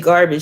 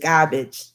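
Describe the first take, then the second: First: It is said in a plain, standard accent. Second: It is said in a Jersey City accent. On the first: "she don't say garbage" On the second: "she says garbage"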